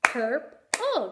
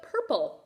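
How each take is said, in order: First: "Purple" broken into pur, pause, pull; teacher sounding out both syllables of "Purple"; split into syllables. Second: Said in the usual way. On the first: Shown as a demonstration. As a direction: say "Purple" in two separate beats. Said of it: "as you say the word". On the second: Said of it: "What about purple".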